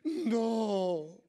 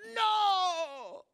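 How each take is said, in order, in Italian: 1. Viene detto con triste rassegnazione. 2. Viene urlato con rabbiosa ribellione. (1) "il secondo è di triste rassegnazione" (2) "il primo è l'urlo di ribellione"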